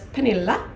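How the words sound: The name is said the Swedish way.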